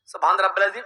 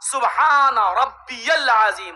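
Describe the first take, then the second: First: It is said quickly, words run together. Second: It is said slowly, each word distinct.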